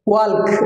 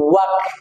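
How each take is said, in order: First: The L sound is pronounced in the word. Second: The L sound is left out of the word. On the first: The speaker calls it wrong. "ওয়াল্ক বলছি আমরা" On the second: The speaker calls it right. "এখানে উচ্চারণ হবে ওয়াক"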